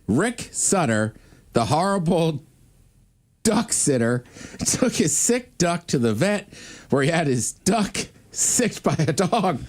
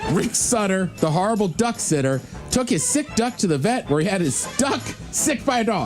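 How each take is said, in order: First: It is said at a normal speed. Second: It is said fast.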